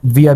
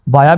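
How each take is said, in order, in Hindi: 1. पहला स्वर 'ee' जैसा सुनाई देता है। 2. पहला स्वर 'eye' जैसा सुनाई देता है। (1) "विया भी पढ़ सकते हैं" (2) "वाया भी पढ़ सकते हैं"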